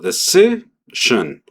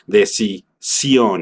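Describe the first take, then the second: First: The stress falls on the middle syllable. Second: The stress falls on the last syllable. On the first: "Al ponerle el énfasis en medio" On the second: "tengo que poner el énfasis en la última sílaba"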